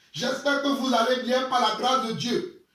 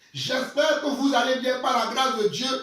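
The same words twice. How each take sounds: Both takes have the same delivery.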